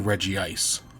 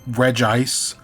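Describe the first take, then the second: First: The name is said with an added vowel sound. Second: The name is said without an added vowel sound. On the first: The speaker calls it wrong. "I will always add that extra I" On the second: The speaker calls it right. "I know it's Regice"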